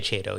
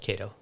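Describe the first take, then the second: First: The word begins with a ch sound. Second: The word begins with a k sound. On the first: This is the speaker's habitual way of saying it. The speaker calls it wrong. "I say Chato" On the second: This is the correct way of saying it. The speaker calls it right. "even though I know it's Cato"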